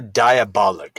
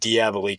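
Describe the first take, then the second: First: The word ends with a short 'ick' sound. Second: The word ends with a long 'eek' sound. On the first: This is how the people in the movie say it. "I'm only saying Diabolic because everybody in the movie calls him Diabolic" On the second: This is how the speaker had been saying it. "I've been saying Diabolique for years now"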